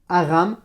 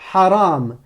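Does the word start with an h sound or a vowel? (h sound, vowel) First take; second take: vowel; h sound. First: The word starts directly with the vowel. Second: The word starts with a breathy h consonant. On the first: The speaker calls it wrong. "là tu as fait que prononcer la voyelle" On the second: The speaker calls it right. "tu me prononces aussi la consonne qui va avec"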